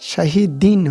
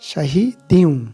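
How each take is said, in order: First: The word ends with a clear n sound. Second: The n is dropped, ending in a w-like glide. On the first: The speaker calls it wrong. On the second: The speaker calls it right.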